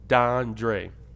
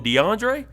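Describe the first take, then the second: First: The name is said with two syllables. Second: The name is said with three syllables. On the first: The speaker calls it right. "my name's Dondre" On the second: The speaker calls it wrong. "are you consciously mispronouncing what you just heard?"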